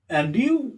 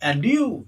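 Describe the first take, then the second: First: It is said as a question, rising. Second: The same.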